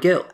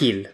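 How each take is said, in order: First: The name starts with a hard G sound. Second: The name starts with a breathy H sound. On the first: This is how commentators said the name. The speaker calls it wrong. "the Spanish commentators were often calling him Brian Gill" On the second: This is how the player says his own name. The speaker calls it right. "he absolutely says his name as Gil"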